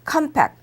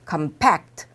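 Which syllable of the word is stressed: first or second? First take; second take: first; second. First: The stress is on the first syllable. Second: The stress is on the second syllable. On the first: It is used as a noun. "명사할 때는 앞으로" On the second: It is used as a verb. "동사할 때는 뒤로"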